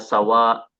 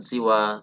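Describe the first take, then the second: First: The first vowel is an a sound. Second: The first vowel is an i sound. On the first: "Boleh dibaca sawa seperti halnya kata sama" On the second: "siwa seperti ridha"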